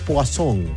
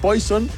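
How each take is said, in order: First: The word is pronounced the French way. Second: The word is pronounced the English way. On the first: The speaker calls it wrong. "se afrancesó y dijo Poisson" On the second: The speaker calls it right. "en vez de decir Poison"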